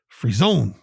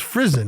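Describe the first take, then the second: First: The stress is on the second syllable. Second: The stress is on the first syllable. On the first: The speaker calls it right. "the accent should be on the second syllable" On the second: The speaker calls it wrong. "Thought it was frizzen, right?"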